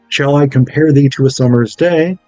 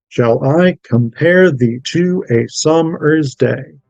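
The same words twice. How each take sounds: First: The beat is subtle, like natural speech. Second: Every second syllable is hit hard, da-DUM style. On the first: The speaker calls it right. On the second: The speaker calls it wrong.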